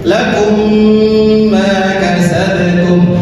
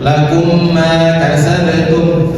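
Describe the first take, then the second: First: The m sound is held for two counts. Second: The m sound is short, not held. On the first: The speaker calls it right. "ditahan dua bentukan" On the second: The speaker calls it wrong.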